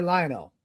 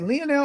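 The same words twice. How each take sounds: First: Lionel with a first syllable like "lie"; Lionel as LY-uh-nel. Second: Lionel with a first syllable like "lee"; Lionel as LEE-uh-nel. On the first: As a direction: say Lionel as LY-uh-nel, English-style first vowel. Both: Shown as a demonstration. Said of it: "is it Lionel or Lionel?".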